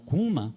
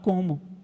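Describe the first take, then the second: First: The word is said with a colloquial 'u' vowel. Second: The word is said with a standard 'o' vowel. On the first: The speaker calls it wrong. "sabe falar errado" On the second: The speaker calls it right. "ele está querendo falar como"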